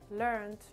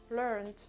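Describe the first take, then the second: No difference in how they are said.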